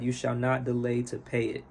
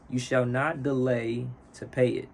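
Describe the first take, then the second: First: It is read at a faster pace. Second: It is read at a slower pace.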